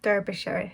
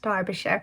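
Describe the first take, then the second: First: It is said the way it is spelled. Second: It is said with the standard local pronunciation. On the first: "spelt Derbyshire" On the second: "but pronounced Derbyshire"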